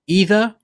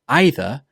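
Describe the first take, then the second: First: The word begins with an ee sound. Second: The word begins with an eye sound. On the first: "with an E sound at the beginning" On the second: "with an I sound"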